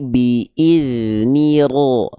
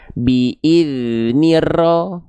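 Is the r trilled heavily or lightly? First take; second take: lightly; heavily. First: The r is trilled firmly but only briefly. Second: The r is trilled with too many vibrations. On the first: The speaker calls it right. "tapi biizniro" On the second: The speaker calls it wrong. "jangan sampai teman-teman melafalkan seperti ini"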